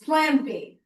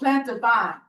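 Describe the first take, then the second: First: The name is said with two syllables. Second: The name is said with three syllables. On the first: The speaker calls it right. "It's Planbine" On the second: The speaker calls it wrong. "a lot of people would have pronounced it"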